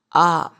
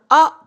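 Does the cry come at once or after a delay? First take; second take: delayed; at once. First: The cry comes out after a delay. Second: The cry comes out at once. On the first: The person is gentle. The speaker calls it right. "일 초 후에 나오거나" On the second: The person is not gentle. The speaker calls it wrong. "딱 아 바로 하는 게 아니라"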